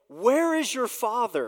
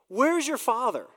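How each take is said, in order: First: It is said in a plain, neutral tone. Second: It is said in a mocking, scornful tone.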